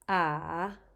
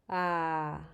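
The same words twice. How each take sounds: First: The pitch dips down and then rises. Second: The pitch is low, like a sigh. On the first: "And finally" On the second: "Low, sighing"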